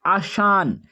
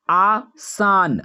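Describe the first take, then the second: First: Said in the usual way. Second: आसान stretched very slowly, every sound held; drawn out. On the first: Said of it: "teacher repeats the word normally". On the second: Shown as a demonstration. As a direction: draw out आसान syllable by syllable for the class. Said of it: "teacher says the word slowly". (आसान को बहुत धीरे खींचकर बोलें)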